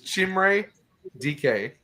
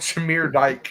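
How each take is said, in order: First: The surname is two syllables, like 'dee-kay'. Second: The surname is one syllable, like 'dike'. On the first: This is the name's actual pronunciation. The speaker calls it right. "It's how you say his name" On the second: This is how the speaker usually says the name. The speaker calls it wrong.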